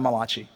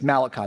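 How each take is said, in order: First: The name is said with an Italian-sounding flair. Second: The name is said in a plain English way. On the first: The speaker calls it wrong. "not Malachi" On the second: The speaker calls it right. "it's Malachi"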